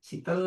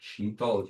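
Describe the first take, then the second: First: It begins with a plain hissing 's' sound. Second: It begins with a hushing 'sh' sound. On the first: The speaker calls it wrong. "શીતલ નથી. આ સસલાનો સ નથી" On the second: The speaker calls it right. "શીતલ છે"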